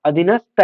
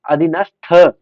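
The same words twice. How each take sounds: First: अधीनस्थ said wrongly with a plain "ta" ending; unaspirated ending. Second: अधीनस्थ with a firm, louder aspirated "tha" ending. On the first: Teacher showing students the error, अधीनस्थ with unaspirated "ta". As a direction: end अधीनस्थ on त, with no puff of air. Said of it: "तय नहीं, थ लगेगा". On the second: Teacher correcting a spelling, अधीनस्थ with aspirated "tha". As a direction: end अधीनस्थ on a breath-puffed थ. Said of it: "थ लगेगा". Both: Shown as a demonstration.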